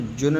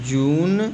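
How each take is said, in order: First: The vowel is a short 'oo' sound. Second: The vowel is a long 'oo' sound. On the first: The speaker calls it wrong. "इसको जुन नहीं पढ़ेंगे" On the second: The speaker calls it right. "बड़ा ऊ"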